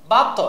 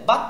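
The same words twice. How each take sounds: First: Said in the usual way. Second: "বা ত" with the final t bounced into a short echo; qalqalah bounce. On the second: Shown as a demonstration. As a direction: push off the t in "বা ত". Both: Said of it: "ধাক্কা দিলাম".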